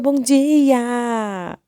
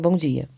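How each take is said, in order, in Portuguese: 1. A saudação soa alegre e cheia de energia. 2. A saudação soa mal-humorada e cansada. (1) "chegava toda animada" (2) "aquele clima chato"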